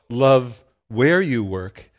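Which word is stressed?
Work. The stress is on the word work.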